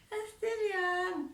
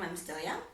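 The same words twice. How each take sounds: First: Put-on high, slow, giggly "I'm still young"; a shy teen dodging the question; coy girlish excuse. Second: Put-on steady, lower "I'm still young"; firm, confident refusal. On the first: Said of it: "how I used to respond to boys". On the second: Shown as a demonstration. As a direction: say it straight, looking him in the eye. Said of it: "Look at him on the eye. Tell him".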